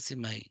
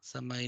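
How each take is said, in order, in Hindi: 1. पहला स्वर 'i' की ध्वनि है। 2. पहला स्वर 'a' की ध्वनि है। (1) "सिमाई बोले इसको" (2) "समाई नहीं"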